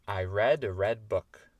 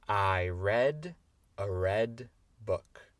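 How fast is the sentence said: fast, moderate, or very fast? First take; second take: fast; moderate. First: The sentence is said at a fast speed. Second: The sentence is said at a moderate speed. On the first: "plus vite" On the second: "on va essayer la phrase entière"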